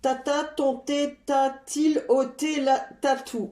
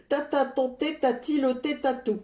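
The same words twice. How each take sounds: First: Careful first try at "Tata, ton thé, ta-t-il ôté la tatou?", each t crisp; tongue twister. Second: Second go at "Tata, ton thé, ta-t-il ôté tatou?" through a laugh; laughing retry. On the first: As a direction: get through "Tata, ton thé" without tripping. (virelangue dit posément, chaque t bien articulé) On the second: (virelangue repris en riant) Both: Shown as a demonstration. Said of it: "Je répète plusieurs fois, de plus en plus vite".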